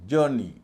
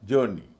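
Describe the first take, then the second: Both takes have the same delivery.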